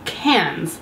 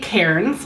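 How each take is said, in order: First: The name is pronounced with a local Australian accent. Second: The name is pronounced the way it is spelled. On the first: "that's how the locals say it with an Australian accent" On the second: "I want to say Cairns, because that's how it's spelled"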